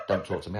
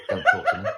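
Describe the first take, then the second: First: Laughing repeat. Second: High, loud breathless snap; mimicking the wife. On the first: Retold or imitated. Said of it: "I'm out of breath". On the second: Wife pushing him uphill, out of breath, snaps: high loud snap. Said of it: "till I got told to stop talking to me".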